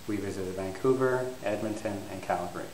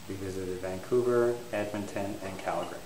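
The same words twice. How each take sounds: Both takes have the same delivery.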